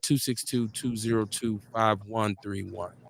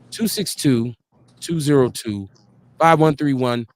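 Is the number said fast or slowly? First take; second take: fast; slowly. First: The number is said fast. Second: The number is said slowly.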